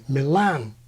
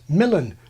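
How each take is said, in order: First: The stress is on the second syllable. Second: The stress is on the first syllable. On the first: It follows the original Italian. "we put the stress where it is in Italian, on the second syllable" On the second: It is the older, fully English form. "fully nativized, like Macmillan"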